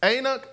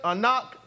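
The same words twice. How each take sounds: First: "Anak" as AY-nuk, stress first; trying a pronunciation. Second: "Anak" as uh-NOK, questioning; alternative pronunciation. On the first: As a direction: say "Anak" with a long AY and weak second syllable. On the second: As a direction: try "Anak" with weak first syllable, open second one. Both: Shown as a demonstration. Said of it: "how do you pronounce this?".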